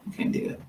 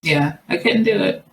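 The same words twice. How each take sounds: First: Whispered echo of the line. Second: Said in the usual way. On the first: Real, not acted. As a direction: repeat it in a whisper.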